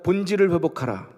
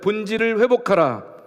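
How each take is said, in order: First: It is said at a normal volume. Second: It is said more loudly.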